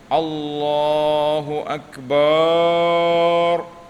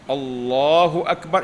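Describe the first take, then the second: First: The vowel after the b is drawn out long. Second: The vowel after the b is short. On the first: The speaker calls it wrong. "Jangan bunyi Allahu akbar. Nah, tidak boleh" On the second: The speaker calls it right. "jangan panjang ba"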